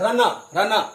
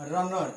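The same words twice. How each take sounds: First: रनर, रनर said louder with a strong r; the Indian runner with a full r; rolled r runner. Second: रनर without a rolled r at the end; British runner; r dropped. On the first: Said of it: "आर का उच्चारण हम करते ही नहीं". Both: Shown as a demonstration.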